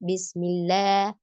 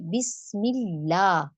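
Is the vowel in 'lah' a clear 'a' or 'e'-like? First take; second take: e-like; clear a. First: The vowel in 'lah' drifts toward an 'e' sound. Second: The vowel in 'lah' is a full open 'a'. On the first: The speaker calls it wrong. "लेकिन या साउंड में जा रहा है ना" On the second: The speaker calls it right. "लेकिन इसमें प्रॉपर ज़बर की आवाज़ दें"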